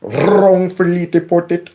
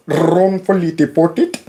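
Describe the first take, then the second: First: "Wrongfully" with a trilled R, slowed; rolled R. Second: "Wrongfully" with a rolled R, slow and drawn out. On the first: Mocking the congressman by rolling his R. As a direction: roll the R in "Wrongfully" slowly. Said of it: "You hear him roll that R?". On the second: Echoing the congressman's rolled R to viewers. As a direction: trill the R of "Wrongfully", take it slow. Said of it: "Roll them R's". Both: Retold or imitated.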